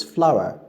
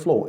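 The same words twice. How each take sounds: First: FLOUR said as "FLAU-uh", like flower; correct pronunciation. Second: FLOUR said as one syllable, "flor"; mispronounced. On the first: Teacher correcting the word flour, correct pronunciation. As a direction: open "ow" glide in FLOUR. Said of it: "it's flour". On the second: Teacher showing the wrong flour, mispronounced. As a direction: rhyme FLOUR with "floor". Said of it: "It's not flour". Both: Shown as a demonstration.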